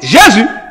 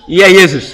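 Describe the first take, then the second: First: The name begins with a J sound. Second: The name begins with a Y sound. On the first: This is how it is said in French. "en français on dit" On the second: This is how it was said in Latin. "Les latins prononçaient toujours"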